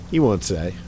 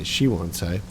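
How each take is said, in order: First: Said in the usual way. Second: "she" corrected and leaned on; stress on she. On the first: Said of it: "I should say she won't say". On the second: Shown as a demonstration. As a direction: hit "she" in "she won't say". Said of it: "I should say".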